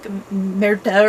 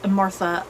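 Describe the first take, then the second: First: The name is said in a Norwegian accent. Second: The name is said in an American accent. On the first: "they kind of pronounce it like Merta or something like that, you know, with their Norwegian accents" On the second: "I'm giving it the American pronunciation of Martha"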